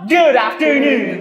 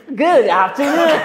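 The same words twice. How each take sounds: First: Slow, loud, hyped greeting; loud drawn-out greeting. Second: Overdone greeting. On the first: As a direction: stretch it out big. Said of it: "parang hindi ka nakakasabay mas sa ano namin, energy". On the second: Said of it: "Over naman". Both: Acted.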